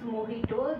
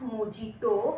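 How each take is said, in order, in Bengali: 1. মাঝের ব্যঞ্জনধ্বনিটি একটি h ধ্বনি। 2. মাঝের ব্যঞ্জনধ্বনিটি একটি j ধ্বনি। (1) "This is mojito" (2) "this is not mojito"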